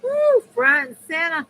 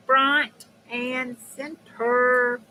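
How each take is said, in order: First: High, loud woo and quick call; excited whoop. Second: Very slow, each word stretched; drawn-out announcement. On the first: Streamer cheering to viewers, excited whoop. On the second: Streamer repeating a cheer to viewers, slow and drawn out. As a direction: stretch out FRONT and CENTER. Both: Real, not acted.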